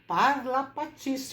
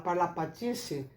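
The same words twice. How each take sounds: First: The word is said expressively, with rich articulation. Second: The word is said flatly, without color. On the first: The speaker calls it right. "Eu tenho que falar parlapatice" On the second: The speaker calls it wrong. "só assim. Fica muito descorado, sem colorido"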